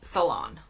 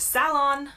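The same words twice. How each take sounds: First: It is said in an American way. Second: It is said in an exaggerated British way. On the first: "in the U S, it's salon" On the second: "U K, it's salon. I kind of overemphasize that"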